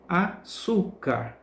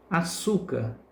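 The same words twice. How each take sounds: First: Açúcar slowly as a-ÇÚ-car, ÇÚ stretched; stressed syllable demo. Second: Said in the usual way. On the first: Shown as a demonstration. Teacher showing pupils the tonic syllable, açúcar stretched with ÇÚ stressed. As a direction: draw out açúcar, leaning on the middle ÇÚ. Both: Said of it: "pronunciamos com mais força".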